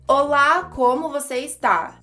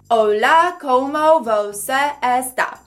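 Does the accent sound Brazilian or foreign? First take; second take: Brazilian; foreign. First: It is said with a native Brazilian accent. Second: It is said with a foreign, non-native accent.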